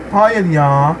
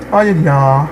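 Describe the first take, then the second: No difference in how they are said.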